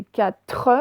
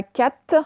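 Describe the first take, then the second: First: "quatre" said as ka-treu, r sounded; "quatre" with a clear tre ending; full final syllable. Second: "quatre" said as "quat", without the r; "quatre" reduced to one syllable, kat; clipped final syllable. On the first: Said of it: "il ne faut pas oublier le R". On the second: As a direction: drop the r at the end of "quatre". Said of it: "ce n'est pas quatre". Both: Shown as a demonstration.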